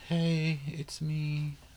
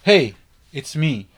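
First: It is said weakly, without energy. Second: It is said boldly, with full energy.

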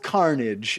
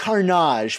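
First: The word has an ordinary English pronunciation. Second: The word has a French-style pronunciation. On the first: The speaker calls it wrong. "We've been mispronouncing it this whole time" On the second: The speaker calls it right. "It's actually French"

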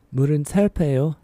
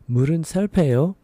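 No difference in how they are said.

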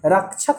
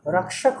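First: The middle cluster sounds like chh. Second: The middle cluster sounds like k plus sh. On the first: The speaker calls it wrong. "रक्षक नहीं होता है" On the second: The speaker calls it right. "रक्षक होता है"

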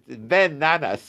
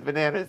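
First: The name is said as two separate words. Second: The name is run together as one word. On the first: It means the son of Nanas. The speaker calls it right. "Ben Nanas, but it didn't matter" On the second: It sounds like the name of the fruit. The speaker calls it wrong. "To us, it was Bananas"

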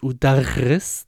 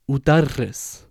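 First: The r sound is not trilled. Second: The r sound is trilled with the tongue. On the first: It uses a different letter and changes the meaning. The speaker calls it wrong. "if I said it as udarris, that's a separate letter" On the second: It means I teach. The speaker calls it right. "I say udarris"

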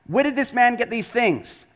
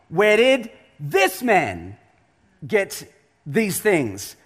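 First: The question is read in a plain, flat way. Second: The question is read with strong, pointed expression.

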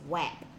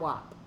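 First: The vowel sounds like the one in map. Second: The vowel sounds like the one in mop. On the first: The speaker calls it right. "So W A P is WAP, like T A P is tap" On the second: The speaker calls it wrong. "not WAP"

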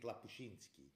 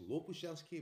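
First: The first vowel is pronounced as an A. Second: The first vowel is pronounced as an O. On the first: The speaker calls it wrong. "iedereen spreekt de O als A uit" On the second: The speaker calls it right. "Het is Lopushansky"

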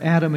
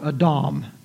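First: It is said with an English pronunciation. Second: It is said with a Hebrew pronunciation.

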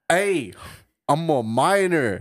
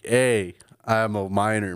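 First: It is said in an attempted Australian accent. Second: It is said in the speaker's ordinary accent.

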